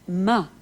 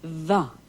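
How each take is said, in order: First: The word begins with an M sound. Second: The word begins with a V sound. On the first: "the M becomes V" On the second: "the M becomes V"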